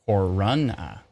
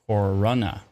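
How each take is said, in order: No difference in how they are said.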